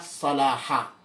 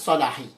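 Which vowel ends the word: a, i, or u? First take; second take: a; i. First: The word ends with an a vowel. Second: The word ends with an i vowel. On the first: The speaker calls it right. "bacaan yang betul dan tepat adalah Salaha" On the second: The speaker calls it wrong. "bukan Salahi"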